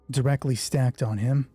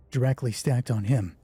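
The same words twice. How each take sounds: The two takes are said the same way.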